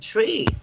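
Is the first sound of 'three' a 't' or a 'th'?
t. It is said with an Irish t sound. The speaker calls it wrong. "when I say it in my Irish accent, it sounds like a tree"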